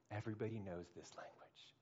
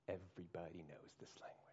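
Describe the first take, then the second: First: Said in the usual way. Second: Hushed unvoiced repeat; whisper. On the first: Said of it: "repeated as whisper". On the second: Shown as a demonstration. Preacher whispering the line to the crowd. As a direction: breathe it like a secret. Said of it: "repeated line".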